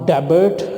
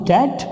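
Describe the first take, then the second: First: The b sound is pronounced. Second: The b sound is silent. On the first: The speaker calls it wrong. "not debit" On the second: The speaker calls it right. "the correct one is debt"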